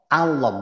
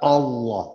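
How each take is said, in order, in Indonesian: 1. Vokal setelah huruf L adalah A terbuka. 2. Vokal setelah huruf L terdengar seperti O. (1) "Allah bukan Allah, bukan O tapi A" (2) "bukan O tapi A"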